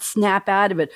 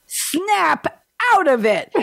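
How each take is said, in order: First: Said in the usual way. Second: High, slow, hammed-up Bronx snap; pretend Bronx accent. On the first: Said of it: "the similarity is that we've got". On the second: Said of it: "I did my pretend Bronx accent".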